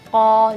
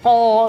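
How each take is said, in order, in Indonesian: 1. Bunyi qaf diucapkan secara santai. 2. Bunyi qaf diucapkan secara berlebihan. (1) "keluarnya lebih enak ketika bacaannya dengan santai" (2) "ko berlebihan"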